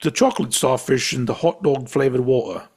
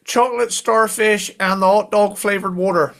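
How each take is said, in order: First: Crisp posh British accent, imitating friend. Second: Cornish accent. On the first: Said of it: "I'm gonna try to say it like you". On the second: Shown as a demonstration. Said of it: "bit more Kerno going on".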